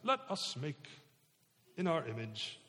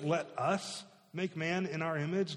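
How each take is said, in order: First: It is said in a put-on accent. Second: It is said in a plain voice.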